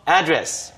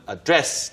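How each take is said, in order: First: The stress is on the first syllable. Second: The stress is on the second syllable. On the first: "강세가 앞에 들어가도 되고" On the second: "중간에 들어가도 됩니다"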